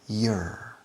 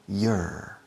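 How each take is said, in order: No difference in how they are said.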